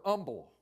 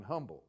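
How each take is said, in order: First: "humble" said as "umble", H silent; dropped H. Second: Said in the usual way. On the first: Shown as a demonstration. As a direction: drop the H from "humble". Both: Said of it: "it's like humble without an H".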